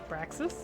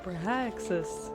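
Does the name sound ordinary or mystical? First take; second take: ordinary; mystical. First: The name is said in an ordinary questioning voice. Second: The name is said in a mystical, otherworldly voice.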